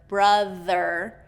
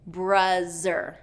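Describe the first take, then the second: First: The middle consonant is a voiced th. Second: The middle consonant is a z sound. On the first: The speaker calls it right. "instead of brother" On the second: The speaker calls it wrong. "I'm hearing bruzzer"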